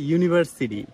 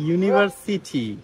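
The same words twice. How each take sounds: First: The t near the end is a soft d-like flap. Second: The t near the end is a clear, hard t. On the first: "ওরা বলে" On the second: "আমরা বলি"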